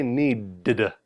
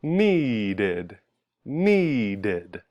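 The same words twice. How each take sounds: First: "needed" as "need-d-duh", stuttered extra d; weird wrong ending. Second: "needed" drawn out as "nee-did"; extra ID syllable. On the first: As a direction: tack a bare "duh" onto "needed". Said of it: "That just sounds weird". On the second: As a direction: stretch "needed" into two clear syllables, falling. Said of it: "add an extra sound". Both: Shown as a demonstration.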